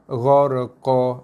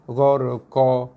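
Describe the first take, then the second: The two takes are said the same way.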